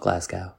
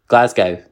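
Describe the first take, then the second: First: Glasgow is said in an American accent. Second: Glasgow is said in a Glaswegian Scottish accent. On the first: The speaker calls it wrong. "in American films, they go" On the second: The speaker calls it right. "that's how you recognize it"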